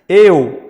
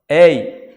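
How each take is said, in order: First: The vowel is pronounced closed. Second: The vowel is pronounced open. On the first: "é fechado" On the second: "é aberto"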